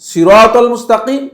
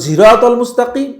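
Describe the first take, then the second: First: The first word begins with a plain s sound. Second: The first word begins with a z sound. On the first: "সিন দিয়েও পড়তে পারেন" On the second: "জা দিয়েও পড়তে পারেন"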